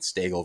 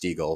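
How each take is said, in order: First: The first syllable sounds like 'stag'. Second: The first syllable sounds like 'steeg'. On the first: The speaker calls it wrong. "People mispronounce my last name, name saying Stagel" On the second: The speaker calls it right. "versus Stiegel"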